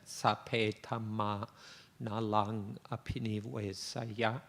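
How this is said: It is said with a Thai accent. "In a Thai accent"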